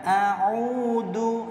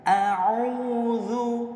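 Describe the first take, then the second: First: The middle consonant is a hard 'd' sound. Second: The middle consonant is a soft 'dh' sound. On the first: The speaker calls it wrong. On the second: The speaker calls it right.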